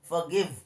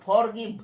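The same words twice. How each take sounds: First: The r sound is left silent in the word. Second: The r sound is pronounced in the word. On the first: The speaker calls it right. "এরকম উচ্চারণ করতে হবে" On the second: The speaker calls it wrong. "অনেকে বলে ফরগিভ, ফরগিভ না কথাটা"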